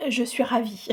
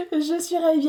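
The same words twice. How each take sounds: First: Said in the usual way. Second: Laughing it out with delight; bubbling over with a laugh. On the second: Real, not acted. Delighted with her new painting, laughing as she speaks.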